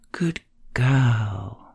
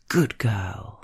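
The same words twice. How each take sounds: First: The stress falls on the second word. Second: The stress falls on the first word. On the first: "Emphasis on the second word" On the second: "you punch the first word into being with the kind of power"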